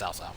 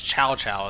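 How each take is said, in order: First: The name does not start with 'ch'. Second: The name starts with a 'ch' sound. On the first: This is the speaker's own habitual pronunciation. "to me, it's always Cao Cao" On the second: This is the correct original pronunciation. "that's how you actually pronounce it"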